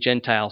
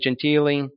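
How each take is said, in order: First: The name is pronounced with plain English sounds. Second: The name is pronounced with Italian sounds. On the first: This is the watered-down form the family uses. "they just say Gentile" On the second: This is the original form of the name. "we don't say Gentile"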